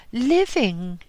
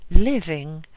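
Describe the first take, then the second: First: Sudden, higher and louder single word; abrupt answer. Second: Louder repeat. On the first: Old woman to the Lama, abrupt loud retort. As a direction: snap the word out at him. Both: Acted. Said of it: "she answered abruptly".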